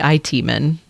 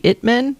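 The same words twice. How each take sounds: First: "I T" spelled out as two letters; "I T" as initials. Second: "It" read as the plain word it, not initials. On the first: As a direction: say "I T" letter by letter, eye-tee. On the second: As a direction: say "It" as one syllable, rhyming with bit. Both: Shown as a demonstration. Reads title as word or initials.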